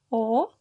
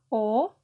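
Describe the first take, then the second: First: The vowel is a closed O. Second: The vowel is a closed O.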